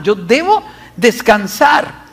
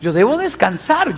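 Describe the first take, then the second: First: Slower, leaning on debo with a lift; stress on debo. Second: Said in the usual way. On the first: Shown as a demonstration. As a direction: press the word debo as a resolve.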